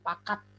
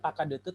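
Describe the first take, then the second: First: The d and t join with no vowel between. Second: Vowels follow the d and the t. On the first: The speaker calls it right. "ada D dan T secara bersamaan" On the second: The speaker calls it wrong. "Itu bukan pakadete"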